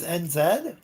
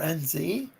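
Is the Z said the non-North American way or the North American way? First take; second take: non-North American; North American. First: The Z is said the non-North American way. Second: The Z is said the North American way.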